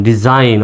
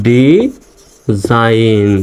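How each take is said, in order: First: Said in the usual way. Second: "design" very slowly, broken into dee, zain; drawn-out "design", each syllable held; slow syllable demonstration. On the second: Shown as a demonstration. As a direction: stretch "design" out with a pause after ডি. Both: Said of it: "উচ্চারণটা হচ্ছে".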